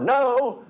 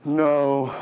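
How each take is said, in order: First: It sounds lively and untroubled. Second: It sounds tired and worn out.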